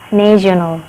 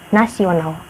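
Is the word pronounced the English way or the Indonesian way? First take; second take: English; Indonesian. First: It is pronounced with English sounds and vowels. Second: It is pronounced with Indonesian sounds, as written. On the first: "in English, national is pronounced national, national, with a lot of vowel" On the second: "In Indonesia, how to pronounce is nasional, the way it is written"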